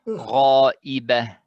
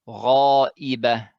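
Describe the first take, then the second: No difference in how they are said.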